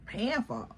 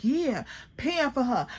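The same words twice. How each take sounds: First: "paying for her" asked softly, as if caught off guard; puzzled question. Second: "paying for her" stated back at normal volume; insistent confirmation. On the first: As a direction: quietly query "paying for her" after a blank pause. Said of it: "I remember me asking, like, paying for her". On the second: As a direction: confirm "paying for her" as a settled fact, falling at the end. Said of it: "She like". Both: Retold or imitated.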